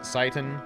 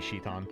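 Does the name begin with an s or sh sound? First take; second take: s; sh. First: The name begins with an s sound. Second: The name begins with an sh sound. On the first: "I always pronounce it Saitan" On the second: "J P is she. I could totally see that if it was supposed to be Shitan"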